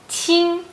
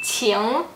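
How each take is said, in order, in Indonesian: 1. Diucapkan dengan nada tinggi datar. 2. Diucapkan dengan nada naik. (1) "nada satu" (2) "nada dua"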